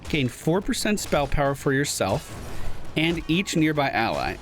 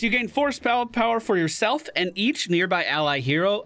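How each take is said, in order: First: It is read more slowly and carefully. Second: It is read at a normal, quicker pace.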